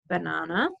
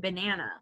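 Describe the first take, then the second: First: It is said with a British accent. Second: It is said with an American accent. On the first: "in England they might say banana" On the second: "most of us in the United States say banana"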